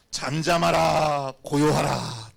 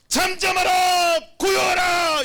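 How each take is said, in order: First: Slow, drawn-out command; solemn slow command. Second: High, loud, drawn-out cry; commanding shout. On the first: Preacher quoting Jesus to the storm, slow solemn command. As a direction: stretch each word out, measured and firm. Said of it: "딱 이렇게 말씀하신 거예요". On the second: Preacher voicing Jesus commanding the storm, sustained shout. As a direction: shout down the wind and waves. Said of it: "이렇게 외치시는 거예요". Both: Acted.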